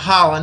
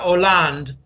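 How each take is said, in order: First: The name begins with a pronounced H sound. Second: The name begins with a silent H. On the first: The speaker calls it wrong. "A lot of people call him Holland" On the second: The speaker calls it right. "It's silent H in French"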